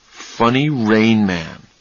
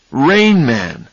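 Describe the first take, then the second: First: Slow, wondering recall of "Funny Rain Man"; slow musing. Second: "Rain Man" burst out louder; sudden realization. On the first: Charlie slowly recalling the phrase. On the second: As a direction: exclaim "Rain Man!" as it dawns on him. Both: Acted.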